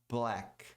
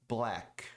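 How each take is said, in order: Both takes have the same delivery.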